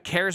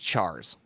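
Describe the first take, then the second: First: The word begins with a k sound. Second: The word begins with a ch sound. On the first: "cares would be like the correct way to say it" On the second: "calls it cars versus chars?"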